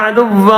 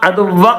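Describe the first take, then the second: First: The final vowel is slightly lengthened. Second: The final vowel is cut short. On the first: The speaker calls it right. "ഒരു ചെറിയൊരു നീട്ടൽ നീട്ടിയിട്ടാണ് വഖഫ് ചെയ്യേണ്ടത്" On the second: The speaker calls it wrong. "അദുവ്വ അദുവ്വ എന്നല്ല"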